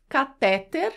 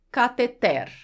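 First: Catéter stressed on the second syllable, TÉ; catéter as doctors say it, the middle syllable TÉ stressed. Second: Cateter stressed on the last syllable, TER. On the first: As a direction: say catéter with the weight on TÉ. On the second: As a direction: say cateter with the weight on the final TER. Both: Shown as a demonstration. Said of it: "como você escuta os médicos pronunciarem".

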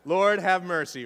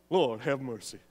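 First: Said in the usual way. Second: Lightly hammed [name] for the congregation; [name] impression. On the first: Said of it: "let me hear your best [name]". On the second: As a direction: do your best [name] on it. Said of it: "your best [name] impression".

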